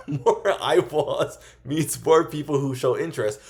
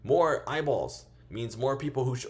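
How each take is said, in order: First: Says it again louder and slower through a laugh; laughing retake. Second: Said in the usual way. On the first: Real, not acted. Retaking a fumbled line for viewers, laughing. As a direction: laugh and push the line out slowly. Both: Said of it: "oh, Jesus".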